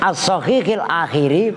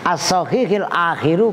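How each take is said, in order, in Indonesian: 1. Kata terakhir diakhiri dengan vokal i. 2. Kata terakhir diakhiri dengan vokal u. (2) "benar juga sebagai fa'il"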